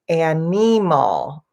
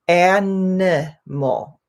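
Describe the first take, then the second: First: The middle vowel is a long ee sound. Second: The middle vowel is a short i sound. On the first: The speaker calls it wrong. "I often hear people say animal, and it's not a E sound" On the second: The speaker calls it right. "it's a I sound"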